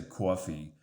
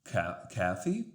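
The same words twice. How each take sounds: First: "coffee" with a rounded "aw", like "cwaw-fee"; dad's New York "coffee". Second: "Kathy" as coffee with an open, unrounded "ah"; mom's New England "coffee". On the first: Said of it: "my dad would say coffee". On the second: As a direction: open the vowel: "cah-fee" for "Kathy". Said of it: "my mom would say". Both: Shown as a demonstration.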